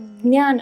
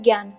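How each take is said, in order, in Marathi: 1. हा शब्द 'dny' ध्वनीने सुरू होतो. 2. हा शब्द 'gy' ध्वनीने सुरू होतो. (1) "ज्ञान आपण जे म्हणतो" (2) "त्याच्याऐवजी ज्ञान असा उच्चार होतो"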